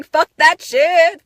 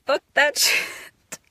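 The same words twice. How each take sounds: First: Higher, louder, slow shout; exultant shout. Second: Slow whisper breaking into laughter; laughing whisper. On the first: Releasing old pain: slow exultant shout. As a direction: belt it out in triumph. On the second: Releasing old pain: laughing whisper. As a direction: let the laugh break through. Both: Real, not acted.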